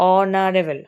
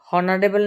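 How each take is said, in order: First: The word begins directly with a vowel sound. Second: The word begins with an audible h sound. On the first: The speaker calls it right. "কিন্তু উচ্চারণটা কি হচ্ছে অনারেবল" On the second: The speaker calls it wrong. "হনারেবল না"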